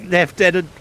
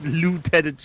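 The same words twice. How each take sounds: First: The first syllable does not sound like 'loo'. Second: The first syllable sounds like 'loo'. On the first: The speaker calls it right. "It's Lieutenant" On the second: The speaker calls it wrong. "not Lieutenant. You're not a tenant of a toilet"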